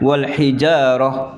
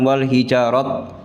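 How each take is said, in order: First: The word ends with an h sound. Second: The word ends with a t sound. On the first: The speaker calls it right. "ta marbuto kalau di waqaf itu berubah menjadi huruf ha" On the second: The speaker calls it wrong. "bukan wal hijarat"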